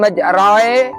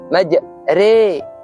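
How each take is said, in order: First: The vowel after r is full, not thinned. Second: The vowel after r is thinned toward e. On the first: The speaker calls it wrong. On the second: The speaker calls it right. "Re tipis"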